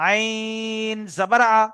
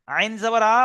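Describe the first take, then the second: First: "আইন" stretched very long on a held, level note; three-alif elongation. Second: "আইন" said short, without the long hold; wrong short vowel. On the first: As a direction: hold the vowel of "আইন" for three beats before the rest. ("আইন"-এ তিন আলিফ লম্বা টান) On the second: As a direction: say "আইন" quickly, no elongation on it. ("আইন" টান ছাড়া, ছোট করে পড়া) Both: Shown as a demonstration. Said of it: "তো আইনটা তিন আলিফ".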